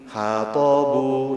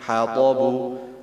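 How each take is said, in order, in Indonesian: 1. Sebuah vokal dibaca panjang. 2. Vokalnya dibaca pendek, satu ketukan masing-masing. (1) "Jangan sampai ... berubah menjadi uh, panjang" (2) "Jadi bacanya seperti itu"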